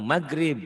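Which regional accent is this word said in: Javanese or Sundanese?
Sundanese. Said with a Sundanese accent, throaty G sound. "Kalau orang Sunda bilangnya maghrib gitu G-nya itu"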